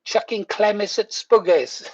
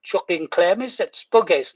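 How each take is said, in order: First: Repeated Geordie phrase, lighter; Geordie accent. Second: Retold Geordie phrase; Geordie accent. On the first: Retold or imitated. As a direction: say it again in broad Geordie. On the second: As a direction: say it in broad Geordie. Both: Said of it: "I was going".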